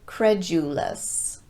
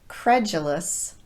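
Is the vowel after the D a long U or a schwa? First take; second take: long U; schwa. First: The vowel after the D is a long U. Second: The vowel after the D is a schwa. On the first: The speaker calls it wrong. "not credulous" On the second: The speaker calls it right. "reduced the long U sound to more of a schwa vowel"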